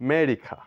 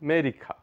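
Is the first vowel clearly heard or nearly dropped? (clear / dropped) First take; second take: dropped; dropped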